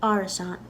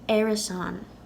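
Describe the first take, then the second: First: The first vowel sounds like 'ah'. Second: The first vowel sounds like 'eh'. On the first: "So just to be safe, I have Arasan" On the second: "in theory, in Ulster, this word could be pronounced Arasan"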